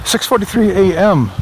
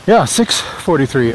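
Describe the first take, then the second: First: Upbeat announcer reading the time; radio DJ voice. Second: Said in the usual way. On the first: Real, not acted. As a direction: call out the time on air. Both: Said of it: "I sound like a radio D J".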